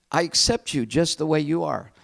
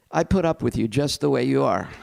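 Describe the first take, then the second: First: Said in the usual way. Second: Mildly grudging, stressing put; grudging tolerance. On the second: Shown as a demonstration. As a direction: let it come out a bit begrudging. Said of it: "Try that out with your friend".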